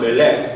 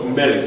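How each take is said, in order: First: The stress is on the last syllable. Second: The stress is on the first syllable. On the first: The speaker calls it wrong. "not melech" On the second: The speaker calls it right. "the first syllable gets the emphasis. So it's melech"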